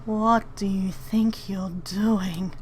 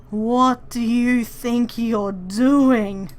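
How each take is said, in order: First: A hissed, voiceless whisper; menacing whispered challenge. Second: Said in the usual way. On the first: Acted. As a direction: breathe the question out with no voice at all. Yes, what do you think you're doing?.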